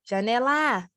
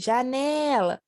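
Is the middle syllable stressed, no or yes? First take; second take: No; Yes. First: The stress falls off the middle syllable. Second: The middle syllable is loud and long. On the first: The speaker calls it wrong. "Também não" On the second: The speaker calls it right. "Eu grito janela. ... É o né"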